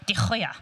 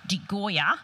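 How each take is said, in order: First: The name is said with a Dutch pronunciation. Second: The name is said with an Australian pronunciation.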